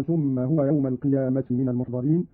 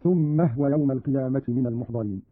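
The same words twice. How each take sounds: First: Said in the usual way. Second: No vowel on the h of "هو"; silent vowel on ha. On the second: Shown as a demonstration. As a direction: run "ثم هو" together as thumma-hwa. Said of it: "بإسكان الهاء هكذا". (إسكان الهاء في "ثم هو")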